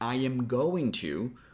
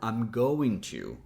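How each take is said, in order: First: Every word is said in full, unshortened. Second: The first two words are joined into one.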